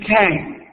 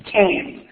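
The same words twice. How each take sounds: First: "can" with the vowel turned toward I; learner's try at "can", vowel like "ai"; attempted digraph. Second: "can" with an open A-E vowel, no T; A-E digraph. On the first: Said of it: "intentarán decir". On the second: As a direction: mouth in A, sound E in "can". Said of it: "realmente es una A E el sonido". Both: Shown as a demonstration.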